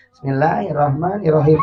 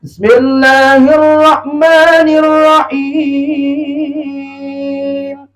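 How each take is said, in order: First: Low, soft, hurried recitation; old-man imam. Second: Slow melodic Quran chant; sung, superb student imam. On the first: Mocking how old men lead prayer, low and rushed. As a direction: rattle it off feebly like a grandpa. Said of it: "coba lamun aki-aki". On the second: Sung, showing how the student imam recites, long and melodious. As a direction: chant it beautifully, stretching the last syllable. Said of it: "Imamna luar biasa, santri Yamuti penghafal Quran". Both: Shown as a demonstration.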